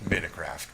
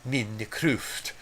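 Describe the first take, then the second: First: The word is said with a plain American accent. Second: The word is said with a Norwegian-sounding accent. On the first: "I'm from the great nation of Chicago ... I just call it uh, Minecraft" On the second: "the correct pronunciation of this game would be Minecraft"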